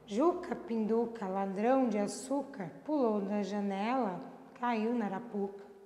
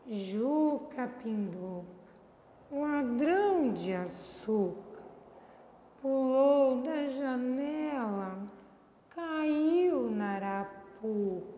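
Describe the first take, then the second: First: It is said indifferently, neither happy nor sad. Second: It is said sadly, slow and low-pitched.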